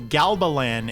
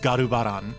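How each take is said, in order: First: The name is said with English sounds. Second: The name is said with Japanese sounds.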